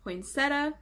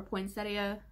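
First: Poinsettia said in three syllables, poyn-SET-uh; variant pronunciation. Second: Poinsettia said in four syllables, poyn-SET-ee-uh; variant pronunciation. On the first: Vlogger offering a regional variant, Poinsettia as "poin-SET-uh". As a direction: drop the i in Poinsettia, ending "-setta". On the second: Vlogger offering the other regional variant, Poinsettia as "poin-SET-ee-uh". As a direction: sound the i in Poinsettia, ending "-ee-uh". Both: Shown as a demonstration. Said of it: "however you wanna say it".

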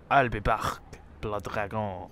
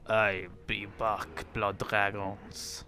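First: Put-on low Terminator-style Austrian accent. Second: Put-on slow, low French-accented line. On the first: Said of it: "not, not Austrian". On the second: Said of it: "that was a French accent".

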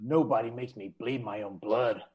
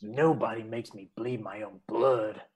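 First: Low, soft deadpan movie line; lightly voiced dodgeball coach line; movie quote. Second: Low, soft and slow deadpan line; a slower second take of the coach line; movie quote retake. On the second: Acted. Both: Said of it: "Do it again once more".

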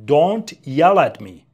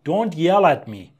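First: Louder, slower, pushing on yell; louder repeat. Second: Said in the usual way. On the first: Shown as a demonstration. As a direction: say it again with more force, slowly. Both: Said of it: "سر من داد نزن".

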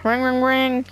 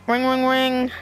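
Both takes have the same delivery.

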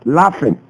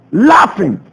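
First: Said in the usual way. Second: "Laughing" repeated with a stronger, bitter push; emphatic repeat. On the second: Real, not acted. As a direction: hit "Laughing" again, disgusted.

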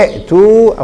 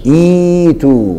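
First: ائتوا split by a glottal stop; original hamza pronounced. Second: إيتوا with a long, smooth "ii"; hamza turned ya. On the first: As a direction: say ائتوا as "i'-tuu", catching the hamza. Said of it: "قلبت الهمزة الثانية". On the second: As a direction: draw out إيتوا slowly as "iii-tuu". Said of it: "فصارت إيه؟". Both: Shown as a demonstration.

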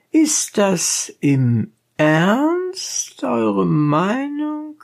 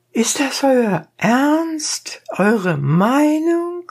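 First: Very high and very slow, cool question; cold-blooded. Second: Very high, slow, cool question; cold-blooded. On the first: Donkey driver coolly questions the dentist, very slow and high. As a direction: stretch it out coolly, rising at the end. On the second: Donkey driver coolly questions the dentist, very high. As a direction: ask it coolly, drawn out. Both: A narrator's reading. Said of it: "mit der ganzen Kaltblütigkeit".

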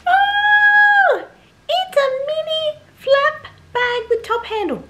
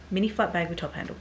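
First: Very high, loud, squealing reveal; silly put-on voice. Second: Said in the usual way. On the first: Vlogger revealing the new bag to viewers, silly high squeal. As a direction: squeak it out like an over-excited cartoon. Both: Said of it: "I don't know why I was using that voice".

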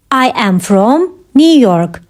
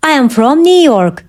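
First: Slow, pause before "New York"; measured, careful delivery; slow teaching repeat. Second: Said in the usual way. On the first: Shown as a demonstration. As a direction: separate the parts for learners. Teacher repeats answer slowly for learners.

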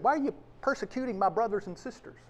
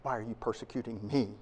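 First: Quick, light throwaway of the wrong version; quick version of the words Jesus did not say; hypothetical wording. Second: Low and soft, weight on "me"; quiet, weighty version of the words Jesus did say; the true words. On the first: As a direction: rattle off "Why are you persecuting my brothers and sisters?" quickly. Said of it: "'Cause he could have said". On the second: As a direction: lay "Why are you persecuting me?" down low and quiet, leaning on "me". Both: Acted.

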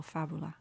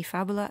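First: Fabula with the weight on FA: FA-bu-la; stress on the first syllable. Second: Said in the usual way. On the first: Shown as a demonstration. Teacher showing students where the Latin accent falls, FA-bu-la. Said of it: "should be on the first syllable". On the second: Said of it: "It should, should be on the first syllable".

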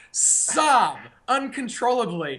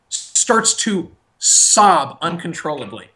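First: Slow hushed repeat of Sob uncontrollably for the laugh; knowing emphasis. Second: Said in the usual way. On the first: Shown as a demonstration. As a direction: Sob uncontrollably said slow and soft with a pointed lean on sob. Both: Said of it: "And you know who I'm talking about".

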